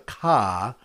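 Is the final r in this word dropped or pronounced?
dropped. The final r is dropped, in a Boston accent.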